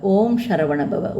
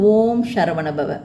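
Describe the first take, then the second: Both takes have the same delivery.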